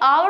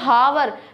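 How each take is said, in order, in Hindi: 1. शब्द सीधे एक स्वर ध्वनि से शुरू होता है। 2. शब्द की शुरुआत में साफ़ सुनाई देने वाली "h" ध्वनि होती है। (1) "ये आवर होता है" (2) "पर no this is not हावर"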